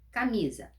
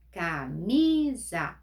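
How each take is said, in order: First: Said in the usual way. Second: "Camisa" drawn out slowly, "mi" held and louder; stress on the middle syllable. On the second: Shown as a demonstration. Teacher to pupils, slowly stressing "Camisa". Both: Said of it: "A penúltima sílaba é a mais forte".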